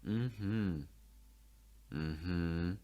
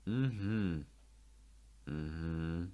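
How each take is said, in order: Both takes have the same delivery.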